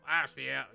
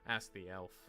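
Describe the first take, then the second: First: It is said loudly, like a shout. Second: It is said quietly.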